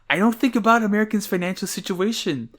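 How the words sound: It is said in a put-on imitation voice.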